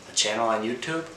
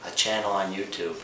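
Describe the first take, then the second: No difference in how they are said.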